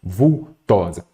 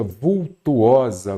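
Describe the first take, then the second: First: "vultosa" em três sílabas, sem U antes do O; forma correta, vultosa. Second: "vultuosa" com um U a mais, "vul-tu-o-sa"; forma errada, vultuosa. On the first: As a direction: separe "vultosa" em "vul... tosa". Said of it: "o correto seria". ("vultosa" pausado, com "to" direto) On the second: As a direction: articule "vultuosa" em quatro sílabas, com "tu-o". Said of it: "Aqui o correto seria o quê". ("vultuosa" bem marcado, com o U antes do O) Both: Shown as a demonstration.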